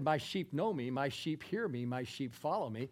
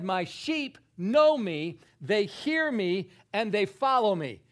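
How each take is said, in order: First: Said in the usual way. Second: Loud, slow declaration with each phrase punched; very emphatic. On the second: Retold or imitated. Preacher quoting what Jesus said about his sheep, very emphatic. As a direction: hammer KNOW, HEAR and FOLLOW, higher and louder. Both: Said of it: "He said it very emphatically".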